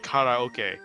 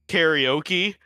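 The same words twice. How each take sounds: First: It is said with a Japanese pronunciation. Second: It is said with an English pronunciation. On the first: It is a showy attempt to correct others. The speaker calls it wrong. "go full weeb and try to correct people and say" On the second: It uses the accepted everyday form. The speaker calls it right. "which is the accepted official English pronunciation of that word"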